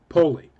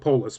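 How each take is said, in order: First: The word ends without an s sound. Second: The word ends with an s sound. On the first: This is how the show says it. "everybody called whatever city they happened to be in Poli" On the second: This is how we would normally say it. "or we would pronounce it Polis"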